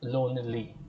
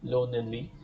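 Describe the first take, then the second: The two takes are said the same way.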